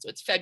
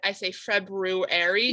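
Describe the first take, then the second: First: The R after the B is silent. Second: The R after the B is pronounced. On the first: This is how it is normally said. "when you pronounce it, the R is silent" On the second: This is how it is spelled. "When I spell it in my head, I say February"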